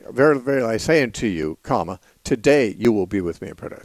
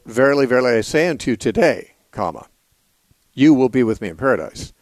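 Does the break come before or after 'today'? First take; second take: before; after. First: The break comes before the word today. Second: The break comes after the word today.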